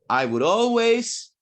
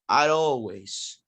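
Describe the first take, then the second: First: Would is said as a full separate word. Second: Would is shortened and joined onto I.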